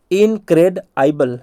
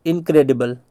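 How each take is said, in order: First: Slow, split इनक्रेडआइबल as in-cred-aibal; broken into parts. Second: Said in the usual way. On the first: Shown as a demonstration. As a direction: spell it out in pieces. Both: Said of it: "ऐसे तोड़ तोड़ के पढ़ना".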